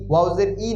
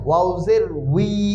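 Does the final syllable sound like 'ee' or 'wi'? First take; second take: ee; wi. First: The final syllable is a plain i vowel. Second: The final syllable begins with a w sound. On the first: The speaker calls it wrong. "ই না" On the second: The speaker calls it right. "এটা দুর্বল হরফ, এই জন্য উচ্চারণ একটু ভিন্ন।"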